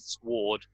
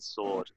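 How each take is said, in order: First: A W sound is pronounced after the S. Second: No W sound is pronounced after the S. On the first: The speaker calls it wrong. "We don't say sword" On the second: The speaker calls it right. "We just say sword. It's a it's a silent letter"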